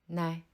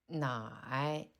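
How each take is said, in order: First: The syllable is said lightly with a neutral tone. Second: The syllable is said with a low dipping tone. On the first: "le deuxième caractère se prononce au ton neutre" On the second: "le premier caractère se prononce au troisième ton"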